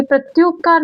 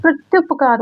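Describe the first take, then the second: First: "प्रत्युपकार" with a long oo, as prat-yoop-kaar; long "yoop" in the middle of "प्रत्युपकार"; wrong long vowel. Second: "प्रत्युपकार" with a short u, as prat-yup-kaar; short "yup" in the middle of "प्रत्युपकार"; correct short vowel. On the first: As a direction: say "प्रत्युपकार" stretching the yu to yoo. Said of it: "ये प्रत्युपकार नहीं होता". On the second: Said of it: "शुद्ध शब्द प्रत्युपकार होता है". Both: Shown as a demonstration.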